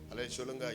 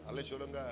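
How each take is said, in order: Both takes have the same delivery.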